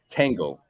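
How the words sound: The T is hard, as in American English. The speaker calls it wrong. "Americans say it as tango"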